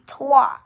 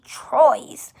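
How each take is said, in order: First: The word ends in a 'wah' sound. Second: The word ends in an 'oy' sound. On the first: The speaker calls it right. "but it's actually trois" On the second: The speaker calls it wrong. "You you might think it's supposed to be Troyes"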